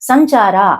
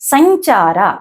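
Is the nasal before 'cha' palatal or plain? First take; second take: plain; palatal. First: The nasal before 'cha' is a plain nasal. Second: The nasal before 'cha' is a palatal 'ñ'. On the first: This is the everyday way of saying it. The speaker calls it wrong. "జనరల్గా సంచార అంటాం" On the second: This follows the Sanskrit pronunciation rules. The speaker calls it right. "అనుస్వరాన్ని ఇనిగా పలుకుతుంది"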